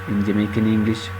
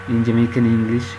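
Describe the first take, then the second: The two takes are said the same way.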